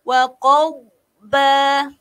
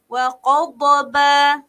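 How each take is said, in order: First: The dh sound is held without release. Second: The dh sound is released with a bounce. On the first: The speaker calls it right. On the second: The speaker calls it wrong. "jangan pergi terlepas ... tak boleh eh"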